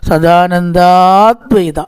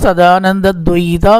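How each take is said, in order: First: A long vowel comes before 'dvaita'. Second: No long vowel comes before 'dvaita'. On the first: The speaker calls it right. "അവിടെ ദീർഘമുണ്ട്" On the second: The speaker calls it wrong. "സദാനന്ദ ദ്വൈതല്ല"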